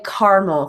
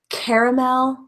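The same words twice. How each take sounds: First: It is said in the American way. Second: It is said in a non-American way.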